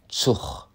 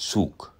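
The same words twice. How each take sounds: First: Short vowel, ending with a ch sound. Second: Long vowel, ending with a k sound. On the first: "wie das G am Ende einer Silbe nicht wie K, sondern wie ein C H klingt"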